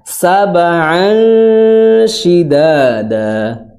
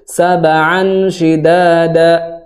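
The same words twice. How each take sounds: First: The phrase is read slowly, holding the sound. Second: The phrase is read quickly and rushed. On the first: The speaker calls it right. "ditahan dulu, jangan terburu-buru" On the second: The speaker calls it wrong. "itu berburu-buru"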